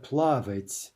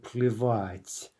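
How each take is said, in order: First: Плавать with the vowel а, not плевать; wrong form плавать. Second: Плевать slowly, stress on the last syllable; slow, careful плевать; correct form плевать. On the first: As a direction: say плавать as the contrast. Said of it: "it's not плавать". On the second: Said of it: "note the stress on that and the spelling". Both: Shown as a demonstration.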